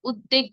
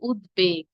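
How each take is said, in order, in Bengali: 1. d-এর পরে কোনো b ধ্বনি শোনা যায় না। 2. d-এর পরে একটি b ধ্বনি শোনা যায়। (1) "উদ্বেগ বলা যাবে না।" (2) "কি বলতে হবে?"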